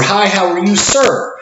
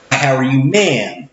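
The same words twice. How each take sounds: First: Higher, sing-song customer-service hello, rising on "sir"; bright cashier greeting. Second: Said in the usual way. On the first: Shown as a demonstration. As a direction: greet the gentleman like a cheerful cashier.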